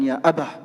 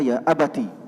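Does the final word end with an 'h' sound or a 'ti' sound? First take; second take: h; ti. First: The word ends with an 'h' sound. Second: The word ends with a 'ti' syllable. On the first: The reader stops at this word. "kalau berhenti mengatakan ya abah" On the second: The reading continues without stopping. "kalau bacaan kita ya abati"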